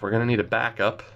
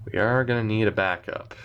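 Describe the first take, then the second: First: Said in the usual way. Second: "are" stressed in full, not contracted; firm restatement landing on "are". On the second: Real, not acted. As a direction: lean on the word "are".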